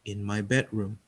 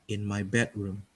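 No difference in how they are said.

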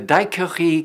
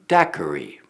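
First: The word is pronounced the French way. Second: The word is pronounced the English way. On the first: "the French pronunciation of Daiquiri may sound strange" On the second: "I'm sure you know the English translation"

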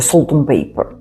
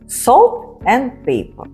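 First: The words are reduced and run together quickly. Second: Each word is said clearly and separately. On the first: This is how native speakers actually say it. "що це таке salt and paper? Да? Ми чуємо" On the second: This is the form learners are taught. "А це salt and paper"

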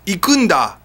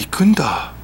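First: It is said in a confident, assertive way. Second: It is said as a dramatic, surprised realization.

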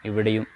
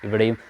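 No difference in how they are said.

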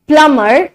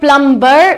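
First: The b sound after m is silent. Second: The b sound after m is pronounced. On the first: The speaker calls it right. "M के बाद बी है तो बी हमारा क्या होगा? Silent होगा" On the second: The speaker calls it wrong. "Not प्लम्बर"

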